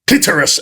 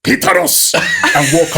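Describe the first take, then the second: First: Blurted out, louder and higher; retold shout. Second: "Clitoris" in a much higher mock African accent. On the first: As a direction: blurt the one word you remember. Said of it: "and I just shout". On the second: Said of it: "in an African accent".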